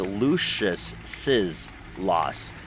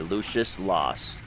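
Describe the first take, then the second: First: Lucius gets an added 'iz' syllable before loss. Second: Lucius runs straight into loss, no added syllable. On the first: The speaker calls it right. "because it's one person, Lucius, who had the loss, which is another S" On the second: The speaker calls it wrong. "You could tell by the way way I pronounced it how they had written it"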